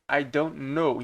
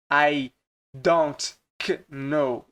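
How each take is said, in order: First: "know" said as "no", no K sound; silent K. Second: "know" with a separate K sound before it; pronounced K. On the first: Teacher showing learners the silent K, "know" sounding like "no". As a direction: drop the K entirely in "know". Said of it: "Esse K aqui é mudo". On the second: Teacher showing learners what not to pronounce, K sounded in "know". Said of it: "você não pronuncia". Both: Shown as a demonstration.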